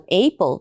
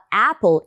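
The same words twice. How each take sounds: First: The first vowel is a diphthong like 'ei'. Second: The first vowel is a short single vowel. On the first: The speaker calls it wrong. "e não apple" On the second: The speaker calls it right. "a gente também fala apple"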